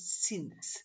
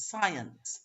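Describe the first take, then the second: First: 'since' as one short-vowel syllable; one-syllable since. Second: 'science' in two clear syllables, SCI-ence; two-syllable science. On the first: Teacher contrasting the other one with science, one-syllable since. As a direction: say 'since' in a single beat, softly. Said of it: "one syllable". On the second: Teacher showing how it's actually pronounced, two-syllable science. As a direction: say 'science' with both vowels heard, sci-ence. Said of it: "Two syllables". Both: Shown as a demonstration.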